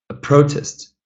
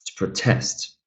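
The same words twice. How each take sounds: First: "protest" as a noun, PRO higher and stressed; stress on first syllable. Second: "protest" as a verb, TEST stressed; stress on second syllable. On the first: Teacher repeats the noun for students, first-syllable stress in "protest". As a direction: put the weight on PRO in "protest". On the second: Teacher repeats the verb for students, second-syllable stress in "protest". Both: Shown as a demonstration. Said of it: "that changes the pronunciation".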